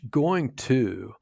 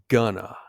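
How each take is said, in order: First: It is said as two full, separate words. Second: It is reduced and blended into one word. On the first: "going to often sounds like" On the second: "in natural speech, going to often sounds like gonna"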